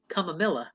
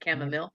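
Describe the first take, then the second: First: The word ends with an added 'la' sound. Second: The word ends with a plain 'mile' sound. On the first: The speaker calls it wrong. "It was chamomilla" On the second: The speaker calls it right. "the way it is"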